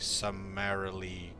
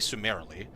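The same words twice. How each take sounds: First: The U vowel is pronounced the standard way. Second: The U vowel is pronounced in an altered way. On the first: The speaker calls it right. "Should be summarily executed" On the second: The speaker calls it wrong. "that's pronouncing the U incorrectly"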